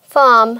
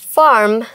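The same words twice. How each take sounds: First: It is said without an r sound. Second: It is said with an r sound. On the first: "British accent" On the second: "এবার আমেরিকানটা করি।"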